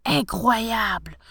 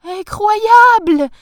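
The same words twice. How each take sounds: First: Slow, drawn-out disbelief; marvelling, not shouted; amazed. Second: Very loud, high, stretched shriek of delight; thrilled, drawn-out shout; ecstatic wife. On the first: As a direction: stretch the word out in dazed wonder. Professor amazed on landing in garden. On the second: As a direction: exclaim it as if jumping for joy. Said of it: "en sautant sur place". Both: A narrator's reading.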